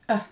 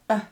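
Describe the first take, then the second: First: The vowel is held only briefly. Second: The vowel is held only briefly.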